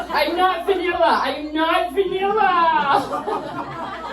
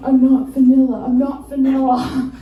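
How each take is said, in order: First: High, very slow laughing insistence; high drawn-out defiance. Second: Chanted, loud, defiant insisting; chanted, insist like proving yourself. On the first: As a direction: drag it out, protesting too much. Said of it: "I'm like". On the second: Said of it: "And then". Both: Retold or imitated.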